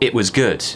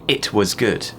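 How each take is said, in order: First: The T in 'it' is dropped. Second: The T in 'it' is clearly pronounced. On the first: "I might drop the T on the word it" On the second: "instead of saying"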